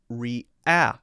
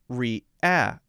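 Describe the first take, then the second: Both takes have the same delivery.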